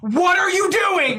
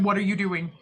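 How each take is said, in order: First: It is said loudly and aggressively, yelling. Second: It is said fairly quietly.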